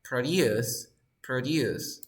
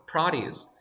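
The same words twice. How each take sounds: First: Produce said pro-DUCE, second syllable stressed; pro-DUCE as in the verb produce. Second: Produce said PRO-duce, first syllable stressed; PRO-duce as in the noun produce. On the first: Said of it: "But when it is a verb". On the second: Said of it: "because this is a noun or adjective". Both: Shown as a demonstration.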